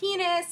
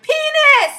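First: The word is said quietly. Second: The word is said loudly. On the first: The game is just starting. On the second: The game is escalating.

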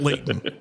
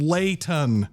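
First: The middle t is cut off with a stop. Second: The middle t is fully pronounced. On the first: The speaker calls it wrong. "not Layton" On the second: The speaker calls it right. "You live in a city called Layton"

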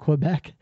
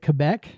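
First: It is pronounced the way Americans usually say it. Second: It is pronounced the way local people say it. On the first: "like us Americans do all the time" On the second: "I think they really say it Quebec"

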